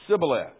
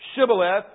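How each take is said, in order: First: The word begins with a plain 's' sound. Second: The word begins with an 'sh' sound. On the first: The speaker belongs to the group that cannot say the word. The speaker calls it wrong. "the other group can't say it right, and so they say Sibboleth" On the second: The speaker belongs to the group that can say the word. The speaker calls it right. "one group says Shibboleth"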